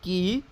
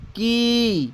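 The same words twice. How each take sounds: First: की with a brief vowel; teacher's short-vowel की; short i demo. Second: की with the ee drawn out; teacher's stretched long-vowel की; long i demo. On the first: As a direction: say की short, then stop. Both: Shown as a demonstration. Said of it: "उसकी चढ़ाव उतराव क्या है".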